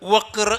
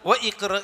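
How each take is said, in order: First: The words run together without the i-vowel. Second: The i-vowel of iqra is clearly pronounced. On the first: The speaker calls it right. "എന്നാ പറയുക" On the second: The speaker calls it wrong. "എന്ന് പറയില്ല"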